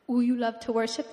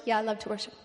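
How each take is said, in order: First: Lightly imitated pastor with rising question; a hint of pastor impression; Pastor Shangwei. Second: Said in the usual way. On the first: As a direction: open on a cooing "ooh", like a funny pastor. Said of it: "he talks like this".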